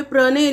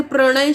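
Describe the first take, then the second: First: प्रणय said as "pranay" with dental n; n replacing ण. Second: Said in the usual way. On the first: Shown as a demonstration. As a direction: say प्रणय with a plain n, no tongue curl. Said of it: "यहाँ पे प्रणय लिख दिया जाता है". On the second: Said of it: "और सही होता है".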